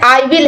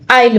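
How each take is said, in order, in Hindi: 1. यह दो अलग-अलग पूरे शब्दों के रूप में बोला जाता है। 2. यह एक संक्षिप्त अक्षर के रूप में बोला जाता है। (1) "जैसे आई विल है" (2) "शॉर्ट में क्या बोलेंगे, आइल बोलेंगे"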